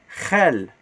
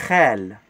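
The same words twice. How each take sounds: Both takes have the same delivery.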